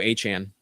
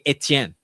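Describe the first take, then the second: First: The name has a Cajun regional pronunciation. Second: The name has a standard French pronunciation. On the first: "we want to go full Cajun" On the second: "that is the most correct pronunciation of his name"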